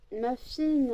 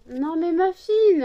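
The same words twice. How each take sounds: First: Raised, higher call to the dog; first, lighter call of the dog's name. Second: Higher, louder and slow, insisting; second, stronger call after being ignored; loud call to the dog. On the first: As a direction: call her over, lifted. Calling the dog. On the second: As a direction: call the dog firmly, drawing it out. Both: Real, not acted.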